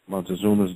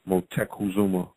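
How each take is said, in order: First: The name is said as Montezuma. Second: The name is said as Motekuzuma. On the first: The speaker calls it wrong. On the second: The speaker calls it right.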